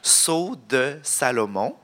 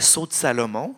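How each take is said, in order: First: It is said slowly and calmly. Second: It is said at a normal speaking pace. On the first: "Là, je le dis plus tranquillement" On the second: "En principe, je dirais Sceau de Salomon"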